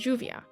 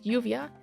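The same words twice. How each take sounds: First: The word begins with a J sound. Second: The word begins with a Y sound. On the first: "pronounced with a J sound" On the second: "said with a Y sound"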